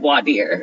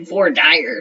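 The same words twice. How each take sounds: First: It is said with a standard pronunciation. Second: It is said with a Texas pronunciation.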